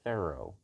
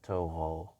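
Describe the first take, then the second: First: The name is said like English 'thorough'. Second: The name is said with French sounds. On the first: The speaker calls it right. "You can say thorough" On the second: The speaker calls it wrong. "Not Toho. this is the French pronunciation"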